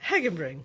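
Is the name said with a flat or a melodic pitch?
melodic. The name is said with a melodic pitch. The speaker calls it right.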